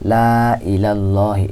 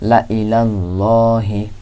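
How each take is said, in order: First: The first vowel is drawn out, stretched long. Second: The first vowel is short, not stretched. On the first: The speaker calls it wrong. "এই লামের মধ্যে একটু টান হইতো" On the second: The speaker calls it right. "শুধু লামটা পড়তে হবে"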